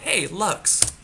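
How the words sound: It is said in a nice, friendly tone.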